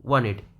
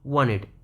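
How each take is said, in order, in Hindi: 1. n के बाद वाला t पूरी तरह छोड़ दिया जाता है। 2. n के बाद वाला t पूरी तरह छोड़ दिया जाता है।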